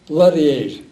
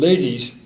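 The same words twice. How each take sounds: First: The vowels sound like Italian vowels. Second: The vowels sound like ordinary English vowels. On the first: "comes out ladies" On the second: "take the word ladies"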